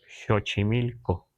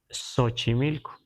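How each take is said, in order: First: It is said with Nahuatl pronunciation. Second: It is said with Spanish pronunciation. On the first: The speaker calls it right. "en náhuatl debemos pronunciar" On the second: The speaker calls it wrong. "si vamos con el grueso de la gente, lo vamos a escuchar"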